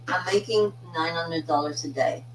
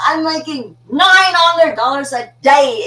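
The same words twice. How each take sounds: First: It is said calmly at normal volume. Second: It is shouted with loud, full energy.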